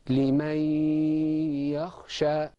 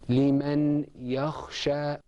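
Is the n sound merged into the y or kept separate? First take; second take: merged; separate. First: The n merges into one stressed y sound. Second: The n is said separately before the y. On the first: "the nun sakina in liman and the ya became one stressed letter" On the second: "Outside of the Qur'an we would say"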